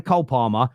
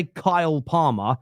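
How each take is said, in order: First: "Cole Palmer" with a short dark vowel, "Col Parmer"; his own South London "Cole Palmer"; Cole in his accent. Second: "Kyle Palmer" with a full "ai" diphthong; the Kyle he does not say, plain diphthong; standard Kyle. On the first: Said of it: "It's just how my voice sounds". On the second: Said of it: "I don't say Kyle Palmer". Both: Shown as a demonstration.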